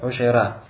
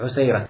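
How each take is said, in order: First: The middle consonant is an sh sound. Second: The middle consonant is a plain s sound. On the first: "А некоторые говорят «Ушейра»" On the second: "с буквой «син»"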